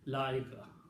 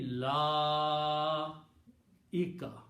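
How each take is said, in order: First: The vowel in la is kept short. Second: The vowel in la is stretched long. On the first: The speaker calls it wrong. "people don't stretch on la" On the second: The speaker calls it right. "should be pronounced with a long mat"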